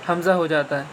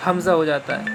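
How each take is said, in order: Both takes have the same delivery.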